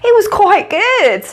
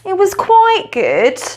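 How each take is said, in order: First: It sounds enthusiastic, strongly approving. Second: It sounds lukewarm, only mildly approving.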